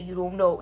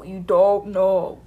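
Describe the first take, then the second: First: Said in the usual way. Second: Slow, louder insistent "You don't know"; repeating "You don't know" slowly and louder to the press. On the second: Retold or imitated. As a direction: lean hard on "don't" in "You don't know", drawn out. Repeated line, slower, louder take.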